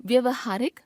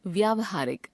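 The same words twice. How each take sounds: First: व्यवहारिक with short vowel in vya, pitched high; wrong pronunciation. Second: Said in the usual way. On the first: Shown as a demonstration. Teacher showing a common error, व्यवहारिक with short first vowel. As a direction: shorten व्या to व्य in व्यवहारिक. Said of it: "अशुद्ध". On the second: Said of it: "शुद्ध".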